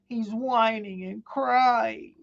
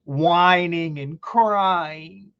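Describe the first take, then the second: First: High, slow whiny voice; a slow, high mocking whimper; mock crybaby whine. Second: Said in the usual way.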